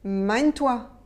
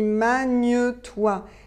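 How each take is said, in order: First: The words are run together quickly. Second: The words are pronounced separately and carefully. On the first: "quand on parle rapidement, on assemble" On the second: "j'ai dit magne-toi"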